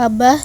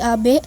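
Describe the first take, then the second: First: The final vowel is an 'a' sound. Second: The final vowel is an 'e' sound. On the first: This is the standard Indonesian form. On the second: This is how native Betawi people say it.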